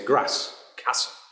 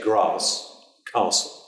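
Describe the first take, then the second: First: It is said in a northern English accent. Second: It is said in a southern English accent. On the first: "anywhere north is more like to say" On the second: "anywhere south of Birmingham is likely to say"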